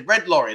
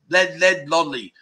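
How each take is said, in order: First: It is said with clear, native English pronunciation. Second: It is said in an imitated non-native accent. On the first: The speaker calls it right. "I say, red lorry" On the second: The speaker calls it wrong. "And they go, led lolly. Because they can't pronounce it"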